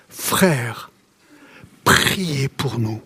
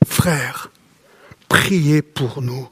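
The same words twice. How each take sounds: First: Low, slow and soft, reading the verse; quiet pleading verse reading; slow solemn reading. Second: Low, very slow and soft, the plea repeated; repeated verse, even slower and softer; slow solemn reading. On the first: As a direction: let the plea sink in slowly. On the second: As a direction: draw out each word of the plea. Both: Acted. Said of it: "il crie son besoin".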